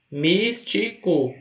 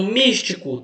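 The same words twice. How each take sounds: First: "Místico" slowly broken into mís... ti... co; syllable by syllable. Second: Said in the usual way. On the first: Shown as a demonstration. Teacher counting three syllables for students, "Místico" split slowly. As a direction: count out "Místico" with a gap after each syllable. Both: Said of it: "Tem quantas sílabas?".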